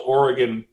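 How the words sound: It is said the way West Coast locals say it. The speaker calls it right. "notice how I pronounced the, the name, the, the state correctly"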